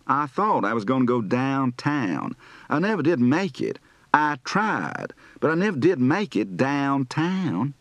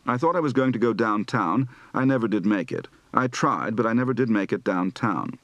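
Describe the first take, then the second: First: Southern accent. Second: Said in the usual way. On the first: Shown as a demonstration. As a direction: stretch the vowels, Southern style. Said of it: "lengthened diphthongs and rising final tones". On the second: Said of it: "Southern accent practice".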